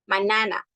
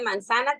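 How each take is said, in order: First: The middle 'z' sound is left out. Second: The middle 'z' sound is pronounced. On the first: This is a child's speech error. The speaker calls it wrong. "te dicen mm, manana" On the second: This is the intended word. The speaker calls it right. "En lugar de manzana"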